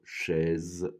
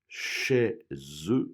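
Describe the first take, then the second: First: The final syllable is pronounced weakly and lightly. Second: The final syllable is pronounced fully and clearly. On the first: "normalement, elle est moins accentuée" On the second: "j'ai fait exprès de prononcer la dernière syllabe"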